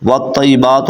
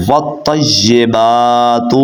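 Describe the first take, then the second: First: Hurried, slurred-together والطیبات; mispronounced recitation. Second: Slow tajweed model of والطیبات; correct recitation. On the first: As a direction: say والطیبات quickly as "wattaibatu", losing the "yi" syllable. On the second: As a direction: chant والطیبات slowly as "wattayyibaatu", holding "baa". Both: Shown as a demonstration. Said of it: "تو ایسے غلط ہو جائے گا".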